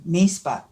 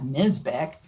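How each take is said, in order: First: The surname is said with German pronunciation. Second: The surname is said with non-German pronunciation. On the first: This is the name's proper original form. The speaker calls it right. "he called it by the proper name" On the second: This is the altered local form of the name. The speaker calls it wrong.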